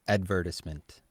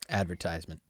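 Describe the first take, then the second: First: It is said in a non-American accent. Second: It is said in an American accent.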